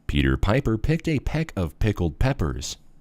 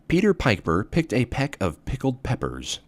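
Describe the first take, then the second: First: The voice has fuller, smoother bass and stronger pops. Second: The voice has less bass and fewer popping sounds.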